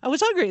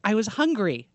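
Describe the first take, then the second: First: "I was hungry" lifted high, a bit louder, playfully innocent; innocent excuse. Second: Said in the usual way. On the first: Retold or imitated. Naked actor excusing himself to the woman, mock-innocent and high. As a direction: make "I was hungry" sound high and sweetly guiltless. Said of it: "And he's like". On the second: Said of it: "He's like".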